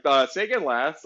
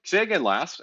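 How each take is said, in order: First: Mock radio operator asking for a repeat; hesitant radio-speak request. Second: Clipped radio call; mock radio operator asking for a repeat; crisp radio-speak request. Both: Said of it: "they'll be like".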